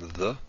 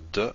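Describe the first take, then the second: First: The consonant is continuous, like th in the. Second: The consonant is a stop, like English d. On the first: "as in the th in the" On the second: "this is d"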